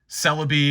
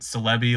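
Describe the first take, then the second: First: It does not sound like 'celebrity'. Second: It sounds like the start of 'celebrity'. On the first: This is how most people say it. "is how most people do it" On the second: This is the speaker's own way of saying it. "but I do it Celebi, like celebrity"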